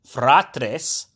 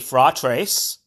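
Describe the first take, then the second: First: The R is rolled with a trill. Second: The R is a plain English R. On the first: "I trill the R" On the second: "pronounce the R as a regular English R and to not trill it"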